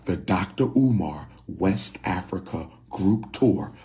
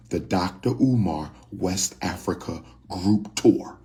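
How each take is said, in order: Both takes have the same delivery.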